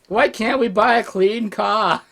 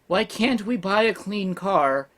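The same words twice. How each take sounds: First: It is said in an Australian accent. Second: It is said in the speaker's plain accent.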